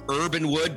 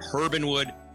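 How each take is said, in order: First: The name begins with a vowel, no h sound. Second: The name begins with an audible h sound. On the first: The speaker calls it wrong. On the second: The speaker calls it right.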